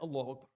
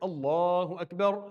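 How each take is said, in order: First: It is said quietly, hard to hear. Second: It is said loudly and clearly.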